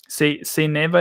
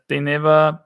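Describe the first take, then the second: First: "they" said as "say", with S for th; Austrian-accented "they", starting with a hissed S. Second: Said in the usual way. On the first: Shown as a demonstration. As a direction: turn the th of "they" into an S. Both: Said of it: "they always use the S for th".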